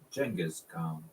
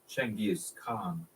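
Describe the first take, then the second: First: The name begins with a j sound. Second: The name begins with a ch sound. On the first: "Arabic has no ch ch sound, and so they used their letter J" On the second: "it entered the Persian language relatively unscathed as"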